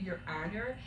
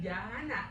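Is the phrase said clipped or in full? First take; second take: full; clipped. First: Both words are said fully and clearly. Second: The phrase is squeezed into two short syllables. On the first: This is the standard form of the phrase. "it's supposed to be your honor" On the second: This is how one particular lawyer says it. "she pronounces it Yana"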